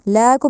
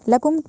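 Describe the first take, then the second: First: The first vowel is long. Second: The first vowel is short. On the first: The speaker calls it wrong. "लाकुम नहीं, लाम के बाद अलिफ नहीं है" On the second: The speaker calls it right. "लकुम कहा जाएगा"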